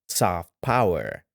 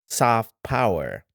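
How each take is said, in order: No difference in how they are said.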